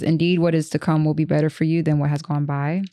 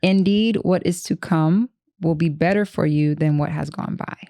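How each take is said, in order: First: It is said fast. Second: It is said slowly.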